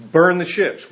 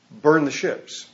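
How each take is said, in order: First: "Burn" hit louder, falling firmly; firm command. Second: Said in the usual way. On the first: Retold or imitated. Cortez ordering his men, "Burn the ships" louder and final. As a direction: repeat the order with more force. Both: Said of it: "then Cortez told them".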